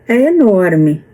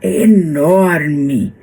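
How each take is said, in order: First: The word is said plainly, without stretching. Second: The word is stretched out with strong emphasis. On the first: The place does not sound truly huge. The speaker calls it wrong. "Não dá uma imagem real de quão enorme" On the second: The place sounds truly huge. The speaker calls it right. "aí dá"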